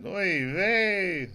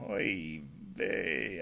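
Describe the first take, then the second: First: Oy vey thrown out higher and louder, with a put-on Yiddish lilt; hammed-up Yiddish exclamation. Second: Said in the usual way. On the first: Shown as a demonstration. Joking about Blazing Saddles, a loud mock Yiddish oy vey. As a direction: lean into Oy vey like a borscht-belt comic. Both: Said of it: "I couldn't even say that".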